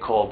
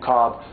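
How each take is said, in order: First: The L is sounded before the final B. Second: No L is sounded; it rhymes with cob. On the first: "It's spelled Kolb, so I say Kolb" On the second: "however you want to pronounce it, corn on my cob"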